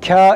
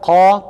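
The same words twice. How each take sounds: First: The syllable is pronounced thin and light. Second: The syllable is pronounced thick and heavy. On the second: "kalın"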